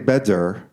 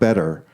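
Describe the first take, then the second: First: The middle consonant is a clear D. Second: The middle consonant is a soft tap. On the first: The speaker calls it wrong. "it's not a D. We don't say better, like in David" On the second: The speaker calls it right. "some intermediate sound"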